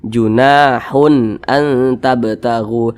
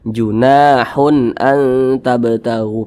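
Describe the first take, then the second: No difference in how they are said.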